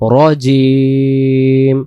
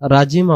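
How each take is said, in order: First: The first syllable sounds like a rounded 'ro'. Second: The first syllable sounds like an open 'ra'. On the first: The speaker calls it right. "উচ্চারণ করব কি রজিম" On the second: The speaker calls it wrong. "রাজিম আমরা পড়বো না"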